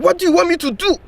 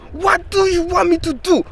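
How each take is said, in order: First: Put-on high, exasperated African teacher accent; a fed-up teacher in a mock African accent; imitated African accent. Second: The repeat, high and exasperated in a mock African accent; fed-up teacher says it again, accent held; imitated African accent. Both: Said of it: "he did this funny accent voice".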